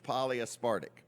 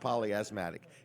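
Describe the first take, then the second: First: The word ends sounding like 'aspartic'. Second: The word ends sounding like 'asthmatic'. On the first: The speaker calls it right. "It's polyaspartic" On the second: The speaker calls it wrong. "It's not polyasthmatic"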